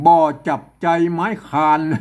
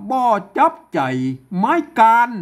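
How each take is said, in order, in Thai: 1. คำสุดท้ายขึ้นต้นด้วยเสียง k พ่นลม 2. คำสุดท้ายขึ้นต้นด้วยเสียง k ไม่พ่นลม (1) "ไม่ใช่นะครับ" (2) "ต้องอ่านว่า"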